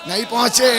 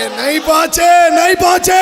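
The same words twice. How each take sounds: First: Said in the usual way. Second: Preacher building the refrain to a loud call; rising shout. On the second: Real, not acted. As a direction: drive the refrain up to a loud cry.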